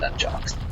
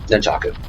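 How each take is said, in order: First: The word ends with a short 'chucks' sound. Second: The word ends with three syllables, 'cha-ku'. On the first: The speaker calls it wrong. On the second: The speaker calls it right.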